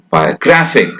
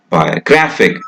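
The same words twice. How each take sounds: First: The unstressed vowel is reduced to a weak schwa. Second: The unstressed vowel is reduced to a weak schwa.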